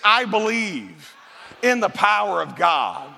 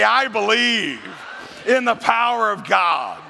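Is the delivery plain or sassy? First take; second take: plain; sassy. First: It is said in a plain, neutral way. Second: It is said in a sassy, emphatic way.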